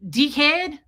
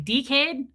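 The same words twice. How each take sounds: First: "Dickhead" said louder, with an Australian accent. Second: "Dickhead" said with an Australian accent, "tikeɪd". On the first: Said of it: "Say it in Australian". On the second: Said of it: "if you wanna be Australian, you say". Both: Shown as a demonstration.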